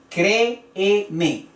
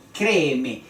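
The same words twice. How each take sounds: First: Créeme split slowly as cré-e-me; syllable by syllable. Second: Créeme as a connected word, CRÉ stressed; stress on first E. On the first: Teacher shows the hiatus, créeme broken into cré, e, me. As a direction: separate both E vowels in créeme. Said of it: "las dos vocales forman parte de sílabas diferentes". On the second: Teacher repeats the example, créeme stressed on CRÉ and falling. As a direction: stress the start of créeme, then fall. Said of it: "donde se alza la voz". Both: Shown as a demonstration.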